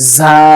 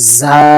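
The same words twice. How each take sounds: First: The consonant is a buzzing hissing sound. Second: The consonant is a buzzing hissing sound.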